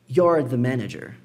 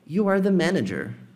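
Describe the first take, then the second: First: 'You are' is contracted and said faster. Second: 'You are' is said in full, more slowly. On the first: "contraído, mais rápido" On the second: "Isso aqui fica mais demorado"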